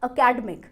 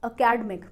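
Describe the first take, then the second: Both takes have the same delivery.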